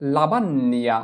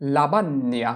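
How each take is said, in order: No difference in how they are said.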